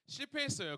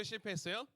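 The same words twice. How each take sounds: First: 실패했어요 with a falling answer tune; 실패했어요 answered, tune dropping; answering flatly. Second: 실패했어요 with a rising question tune; 실패했어요 asked upward to the crowd; asking question. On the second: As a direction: ask 실패했어요 lifting at the end. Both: Shown as a demonstration.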